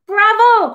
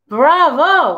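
First: High, loud animal cheer; owl, bats and lizard cheering, high and loud; high cry. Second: Cheering bravo; boy cheering the coyote's song; shout. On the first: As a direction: shriek bravo up high. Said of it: "cry the owl". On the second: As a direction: call out bravo with joy. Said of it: "I shout". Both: A narrator's reading.

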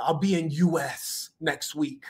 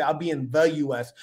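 First: Slow "U S" run straight on from "in"; imitating slow, stretched "in U S"; article dropped. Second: Clearly voiced "the" before "U S"; stress on THE. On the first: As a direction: draw out "U S" with no article before it. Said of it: "wasn't grammatically correct". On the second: Shown as a demonstration. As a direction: lean on "the" as the standard phrasing. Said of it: "He didn't say".

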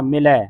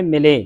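First: ਮਿਲੈ ending in an open "ae"; double-lanv ending. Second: ਮਿਲੇ ending in a close "ay"; single-lanv ending. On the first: Teacher confirms the class's answer, ਮਿਲੈ with open ai. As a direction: open the last vowel of ਮਿਲੈ wide, as in "cat". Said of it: "ਇੱਥੇ ਲੱਗੀਆਂ ਦੋ ਦਲਾਵਾਂ". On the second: Teacher shows the usual misreading, ਮਿਲੇ with a narrow e. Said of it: "ਆਪਾਂ ਪੜ੍ਹ ਜਾਂਦੇ". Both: Shown as a demonstration.

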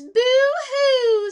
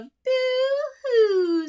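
First: Mock boo-hoo, much higher and louder, falling; hammed-up falsetto sob; rat crying. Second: High boo-hoo falling down; high to low. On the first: Teacher voicing the crying rat in the story. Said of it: "And then the rat goes". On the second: Shown as a demonstration. Teacher repeating the rat's boo-hoo as a downward melody. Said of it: "we've got that down".

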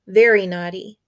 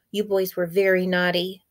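First: Very naughty repeated louder, very stressed with a rise; scold, hitting very naughty harder; a babysitter driving home very naughty; emphatic scolding. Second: Said in the usual way. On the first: Acted.

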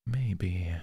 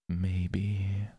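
First: Said in the usual way. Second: Breathy whispered maybe; teasing whispered maybe. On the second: Acted. Repeated maybe.

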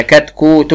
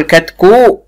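First: كتكوت in full, as katkuutun; complete word. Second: كتكو without its final t, katkuu; cut-off word. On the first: Teacher showing the correct form, كتكوت said whole. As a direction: keep the t and "-un" ending on كتكوت. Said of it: "لازم الكلمة تكون كاملة". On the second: Teacher showing what can't be said, كتكو missing its t. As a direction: drop the ending, leaving كتكو open on uu. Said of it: "ما ينفعش أقول". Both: Shown as a demonstration.

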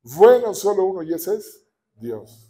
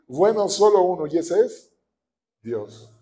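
First: Bueno burst out high and loud, then solo uno, y ese es Dios driven home; emphatic repeat. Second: Said in the usual way. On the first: Shown as a demonstration. Preacher drives the point home to the congregation, emphatic. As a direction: shout Bueno, then press the rest. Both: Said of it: "repeats it stronger".

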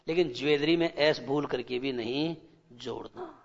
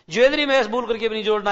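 First: Said in the usual way. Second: Quick, firm repeat with एस stressed; teacher hammering the rule home; insistent repeat. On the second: Shown as a demonstration. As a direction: drive home एस as a warning, fast.

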